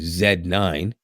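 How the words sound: The letter Z is said the Canadian way. "we say in Canada, we say Z"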